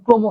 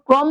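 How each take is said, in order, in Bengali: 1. প্রথম স্বরধ্বনিটি বন্ধ 'o'-এর মতো শোনায়। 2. প্রথম স্বরধ্বনিটি খোলা 'aw'-এর মতো শোনায়। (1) "তাকে উচ্চারণ আপনাকে ওকার দিয়ে করা লাগবে" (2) "ক্রম বলবো নাকি"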